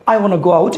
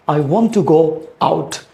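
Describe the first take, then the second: First: The words are run together in a reduced form. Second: Each word is said fully and separately. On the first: "you can say" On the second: "instead of saying"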